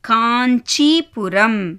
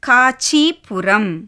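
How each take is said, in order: First: The first syllable has a nasal sound. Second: The first syllable has no nasal sound. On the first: The speaker calls it right. "Correct pronunciation என்ன? ... இன் அந்த sound வந்து அதில் வரணும்" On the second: The speaker calls it wrong. "இப்போ பிந்து இல்லாமல் நான் படித்து காமிக்கிறேன் பாருங்க"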